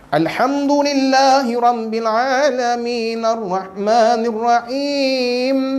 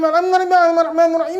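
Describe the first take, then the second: First: It is recited at a measured pace. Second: It is recited very fast, run together.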